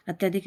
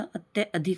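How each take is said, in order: First: अत्याधिक with a long aa after ty; wrong everyday form अत्याधिक. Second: अत्यधिक with short a after ty; correct form अत्यधिक. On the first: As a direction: say अत्याधिक as at-yaa-dhik. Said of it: "अपन ऐसे बोल देते हैं". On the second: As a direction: say अत्यधिक as at-ya, adhik. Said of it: "होता है". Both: Shown as a demonstration.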